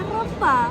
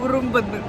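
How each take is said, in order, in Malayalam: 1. ഈ വാക്ക് 'e' എന്ന സ്വരാക്ഷരത്തിലാണ് തുടങ്ങുന്നത്. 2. ഈ വാക്ക് 'u' എന്ന സ്വരാക്ഷരത്തിലാണ് തുടങ്ങുന്നത്. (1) "അങ്ങനെയല്ല"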